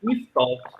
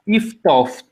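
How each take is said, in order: First: No consonant is heard before the final t. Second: An f sound is heard before the final t. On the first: The speaker calls it right. "that is silent" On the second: The speaker calls it wrong. "in dialect, that age it switches to a f"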